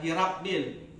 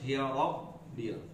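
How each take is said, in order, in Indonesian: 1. R dibaca ringan dan tipis. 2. R dibaca berat dan tebal. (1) "jangan hirabbil" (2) "Ra-nya harus tebal, harus hirabbil"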